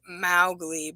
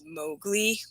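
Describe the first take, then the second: First: The first vowel is not a long O. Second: The first vowel is a long O. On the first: The speaker calls it wrong. "I pronounced it Mowgli" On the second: The speaker calls it right. "it's Mowgli with a long O"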